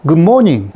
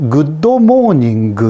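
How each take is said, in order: First: Said in the usual way. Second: Japanese accent. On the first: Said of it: "이것을 good morning". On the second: Shown as a demonstration. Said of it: "이런 식으로".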